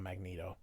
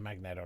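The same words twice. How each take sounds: First: The second vowel is a long 'ee' sound. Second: The second vowel is a short 'eh' sound. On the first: The speaker calls it wrong. "not Magneto. Everybody that says Magneto is incorrect. If it was Magneto, there'd be two E's" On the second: The speaker calls it right. "I say Magneto"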